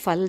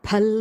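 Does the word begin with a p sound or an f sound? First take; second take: f sound; p sound. First: The word begins with an f sound. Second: The word begins with a p sound. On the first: The speaker calls it wrong. "ஃபல் சொல்லக்கூடாது" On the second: The speaker calls it right. "பல் தான் சொல்லணும்"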